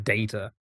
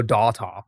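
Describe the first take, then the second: First: Data said as DAY-tuh; long a in data; British data. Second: Data said as DAH-tah; flat a's in data; American data. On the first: Streamer giving chat his own English data. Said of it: "instead of data". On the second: Streamer mocking how Americans say data. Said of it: "They go data". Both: Shown as a demonstration.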